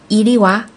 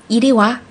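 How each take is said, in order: No difference in how they are said.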